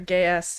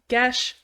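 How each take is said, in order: First: It is two syllables ending in s. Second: It is one syllable ending in sh. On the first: The speaker calls it wrong. "or Gaius" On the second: The speaker calls it right. "it's pronounced Gesh"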